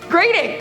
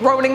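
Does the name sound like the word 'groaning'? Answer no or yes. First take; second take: no; yes. First: It does not sound like the word groaning. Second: It sounds like the word groaning. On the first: The speaker calls it right. "This sounds so weird, but it's Groening" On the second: The speaker calls it wrong. "I've been saying groaning my whole life"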